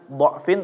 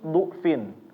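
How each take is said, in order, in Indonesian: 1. Vokal pertama adalah 'a' terbuka. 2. Vokal pertama adalah 'u' bulat. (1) "Bukan dengan dha'fin" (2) "tapi du'fin. Du'fin ya, bukan do"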